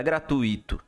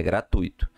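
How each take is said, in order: First: "gratuito" with the I stressed, gra-tu-Í-to; wrong stress. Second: "gratuito" stressed on TU, gra-TUI-to, said lower; correct stress. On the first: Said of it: "Não é gratuito". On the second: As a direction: say "gratuito" with the weight on TUI and the I unstressed. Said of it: "é gratuito". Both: Shown as a demonstration.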